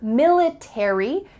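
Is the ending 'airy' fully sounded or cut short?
fully sounded. The ending is fully sounded, American style.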